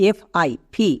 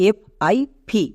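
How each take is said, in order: The two takes are said the same way.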